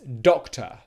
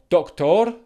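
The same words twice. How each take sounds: First: The ending is a weak schwa vowel. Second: The ending is said as written, with R. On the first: The speaker calls it right. "It's doctor" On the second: The speaker calls it wrong. "spelled with an O R at the end, but it's not pronounced doctor"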